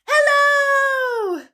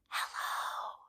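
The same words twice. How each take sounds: First: It is said very loudly. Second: It is said very quietly.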